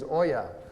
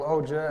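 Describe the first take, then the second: First: The name is said with a Finnish pronunciation. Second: The name is said with an English-style pronunciation. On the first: This is the name's original pronunciation. The speaker calls it right. "the correct pronunciation is Oja, and it's Finnish" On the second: This is how people here say it. The speaker calls it wrong. "here I get called Oja and everything else"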